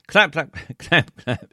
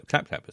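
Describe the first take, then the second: First: Slow, loud, laughing clap clap; mock applause. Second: Said in the usual way. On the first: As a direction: read the claps out big and slow through a laugh. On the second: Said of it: "says [name]".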